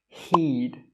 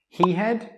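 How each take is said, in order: First: Had is reduced to a short d sound. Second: The word had is said in full. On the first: The speaker calls it right. "They will say I'd" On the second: The speaker calls it wrong. "Most native speakers don't say I had"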